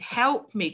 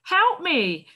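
First: Lightly voiced boy calling out; a touch of desperation; teacher rereading the boy's cry for the class; mild cry for help. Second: Put-on high, louder plea from a frightened boy; a hint of a lost child crying out; desperate cry for help. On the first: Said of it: "cried a young boy". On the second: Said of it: "cried a young boy desperately".

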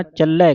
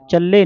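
First: ਚੱਲੈ with an open ai ending; double-lavan ending. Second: ਚੱਲੇ with a closed e ending; single-lan ending. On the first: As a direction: widen the last vowel of ਚੱਲੈ. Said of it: "ਕਹਿਣਾ ਹੈ". (ਚੱਲੈ ਦਲਾਵਾਂ ਨਾਲ) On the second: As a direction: end ਚੱਲੇ on a tight ay. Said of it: "ਨਹੀਂ ਪੜ੍ਹਨਾ". (ਚੱਲੇ ਇੱਕ ਲਾਂ ਨਾਲ) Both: Shown as a demonstration.

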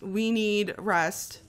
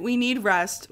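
First: We need rest stretched slowly, each word dragged out; slow, drawn-out. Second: Said in the usual way. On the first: Shown as a demonstration. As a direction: drag it out slowly like you're worn out.

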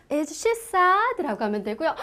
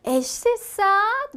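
First: Said in the usual way. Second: Slow model question. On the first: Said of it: "뭐라고요". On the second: Shown as a demonstration. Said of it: "뭐라 그래요".

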